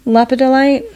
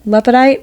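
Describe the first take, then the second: First: The word is said with all four syllables. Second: The word is said with one syllable dropped. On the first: This is how the word reads in print. "I don't say it like that. That's how it's, that's how I read it" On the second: This is how the speaker casually calls it. "I'm missing not, a whole syllable in there"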